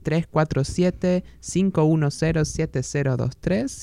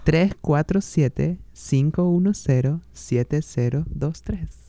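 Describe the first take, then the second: First: The number is said at a normal pace. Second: The number is said slowly.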